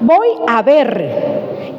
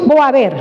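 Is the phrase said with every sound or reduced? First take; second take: every sound; reduced. First: Every sound of the phrase is clearly pronounced. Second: The phrase is said fast with a sound dropped. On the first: The speaker calls it right. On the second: The speaker calls it wrong.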